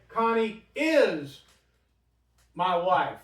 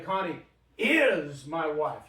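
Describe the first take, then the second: First: Said in the usual way. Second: Slow, leaning on "is" in Connie is my wife; emphatic "is", said slowly; stress on is. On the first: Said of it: "They don't need that in Hebrew". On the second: Shown as a demonstration. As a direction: press hard on the word "is". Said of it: "You only have it for emphasis".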